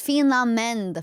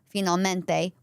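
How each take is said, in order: First: It is said in an Italian American accent, final vowel dropped. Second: It is said in standard Italian, final vowel pronounced.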